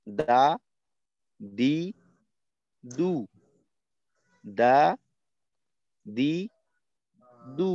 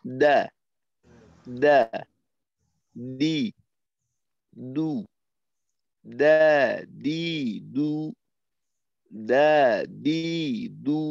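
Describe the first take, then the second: First: দা with breath leaking after the d; uncontrolled breath. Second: দা with breath held in check; clean, firm দা, no air after; controlled breath. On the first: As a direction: let the air escape on দা. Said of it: "শ্বাসের উপর নিয়ন্ত্রণ রাইখে আমি বললাম না". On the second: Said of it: "এইভাবে একটু নিয়ন্ত্রণ করার চেষ্টা করা". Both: Shown as a demonstration.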